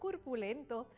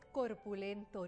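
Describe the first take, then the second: First: The first vowel is pronounced as a u. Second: The first vowel is pronounced as an o. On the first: The speaker calls it wrong. "no curpulento" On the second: The speaker calls it right. "El término correcto es corpulento"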